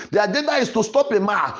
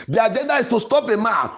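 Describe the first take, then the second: No difference in how they are said.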